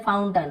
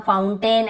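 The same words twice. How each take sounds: First: "फाउंटेन" said as फाउंटन, short weak last vowel; short अ ending. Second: "फाउंटेन" ending in a full ए, "-टेन"; alternative pronunciation. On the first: Teacher showing AI as अ, "फाउंटेन" ending -टन. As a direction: reduce the end of "फाउंटेन" to -टन. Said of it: "यहाँ पर भी अ उच्चारण". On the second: Teacher showing the other common way, "फाउंटेन" with full -टेन. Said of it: "ऐसे बोल देते हैं". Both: Shown as a demonstration.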